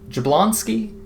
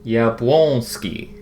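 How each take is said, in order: First: The name begins with a J sound. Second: The name begins with a Y sound. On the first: The speaker calls it wrong. "Surely it's not Jablonski" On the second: The speaker calls it right. "the J is probably a y sound"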